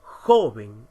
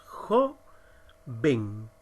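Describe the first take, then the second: First: 'Joven' with a loud punch on 'Jo'; stress on JO. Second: Jo-ven, split into two separate syllables; silabeado. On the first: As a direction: hit JO hard, let 'ven' fall away in 'Joven'. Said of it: "¿Dónde encontramos la mayor fuerza?". ('Joven' con fuerza en la sílaba 'Jo') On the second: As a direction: say 'jo', pause, then low 'ven'. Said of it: "si la silabeamos". (separando las sílabas: jo, ven) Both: Shown as a demonstration.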